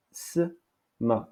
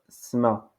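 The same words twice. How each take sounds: First: "Sma" split as s... ma; syllabe découpée. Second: Said in the usual way. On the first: Shown as a demonstration. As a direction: isolate the hissed s of "Sma", pause, then ma. (« Sma » découpé en s... ma) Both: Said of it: "En darija".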